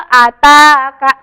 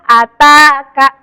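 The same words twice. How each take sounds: Both takes have the same delivery.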